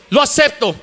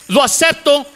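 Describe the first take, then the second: No difference in how they are said.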